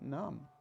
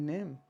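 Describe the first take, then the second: First: The vowel is a long 'ah' sound. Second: The vowel is an 'ay' sound. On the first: This is the older pronunciation. "before the great wall shift, it was naam" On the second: This is today's pronunciation. "name in today's English"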